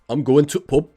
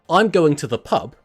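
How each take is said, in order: First: The word 'the' is cut to a brief 't'. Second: The word 'the' is said in full.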